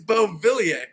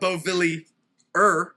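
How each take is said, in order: First: The name is pronounced the French way. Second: The name is pronounced the English way. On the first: The speaker calls it right. "it's French. ... it's Beauvillier" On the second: The speaker calls it wrong. "It's not Beauvillier"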